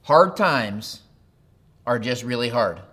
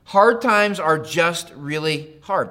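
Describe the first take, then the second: First: Said in the usual way. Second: Slowed down, each word leaned on, hard hit firmly; slow, weighted restatement. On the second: Shown as a demonstration. Pastor to note-taking congregation, slow and deliberate. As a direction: spell it out slowly for note-takers, stressing hard. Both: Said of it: "I'd write it down this way".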